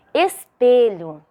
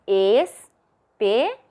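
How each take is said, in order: First: Said in the usual way. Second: "espelho" split as es... pe... lho, with pauses; teacherly "espelho", a clear gap after each syllable. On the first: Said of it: "Vamos separar em sílabas". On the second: Shown as a demonstration. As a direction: sound out "espelho" slowly in three separate beats. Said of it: "Três sílabas".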